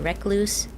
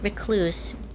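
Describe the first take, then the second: First: The stress is on the second syllable. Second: The stress is on the first syllable. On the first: "some people say recluse. It just, I mean, the emphasis on the second" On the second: "I've always said recluse"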